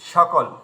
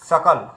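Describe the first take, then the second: First: The word begins with a 'sh' sound. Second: The word begins with a dental 's' sound. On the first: This is the usual Bengali way of saying it. The speaker calls it wrong. "আমরা সকল বলি, বাংলাতে সকল বলি" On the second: This is the actual pronunciation. The speaker calls it right. "কিন্তু actually ওটা উচ্চারণকে সকাল"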